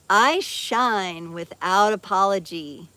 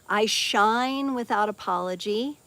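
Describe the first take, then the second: First: It is said loudly, with strong force. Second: It is said gently, with little force.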